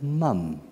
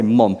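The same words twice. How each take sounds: First: "mum" with a short open u, rhyming with "hum"; "mum" as the kids taught him; English mum. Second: "mom" with the rounded South African vowel, like "mawm"; "mom" as said back home in South Africa. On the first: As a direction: say "mum" the English way, not "mom". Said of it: "they've taught me to say mum". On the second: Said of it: "We call our mothers mom". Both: Shown as a demonstration.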